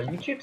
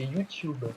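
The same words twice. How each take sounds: First: Said in the usual way. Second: YouTube with a "tyoo" glide in the second syllable; corrected pronunciation. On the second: Shown as a demonstration. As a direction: say YouTube as "you-tyoob", dropping at the end. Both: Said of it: "C'est pas YouTube, c'est YouTube".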